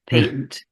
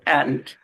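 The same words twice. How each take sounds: First: It is said with a British pronunciation. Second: It is said with a non-British pronunciation. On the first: "the way the British say patent" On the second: "rather than patent"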